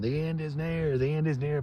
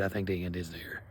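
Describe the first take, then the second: First: High-pitched mock street-corner prophet proclaiming; a lightly hammed-up end-of-the-world shout; street doomsday preacher. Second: Said lower and softer, just confiding it; a low, soft half-serious admission; plain quiet aside. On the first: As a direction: cry it out like a preacher in Times Square. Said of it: "in the stand going". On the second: Retold or imitated. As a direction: drop it down, matter-of-fact. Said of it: "but, like, dude".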